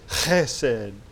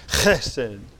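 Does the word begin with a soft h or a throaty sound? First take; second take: throaty; throaty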